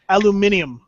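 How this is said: It is said the British way, five syllables.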